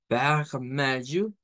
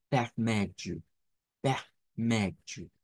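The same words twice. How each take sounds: First: "vermelho" slow with a strong lh; the firmer variant; stronger e. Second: The aspirated variant. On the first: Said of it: "que es más fuerte". ("vermelho" más fuerte) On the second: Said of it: "con la H aspirada". ("vermelho" con H aspirada) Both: Shown as a demonstration.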